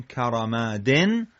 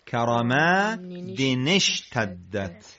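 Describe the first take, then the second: First: کرمادن closed on "-den"; "karamaaden", unlinked; separate form. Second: کرمادن linked into اشتدت as "karamaade-nesh-taddat"; joined form. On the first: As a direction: say کرمادن alone, ending in N. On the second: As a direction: slowly carry the N into "nesh". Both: Shown as a demonstration.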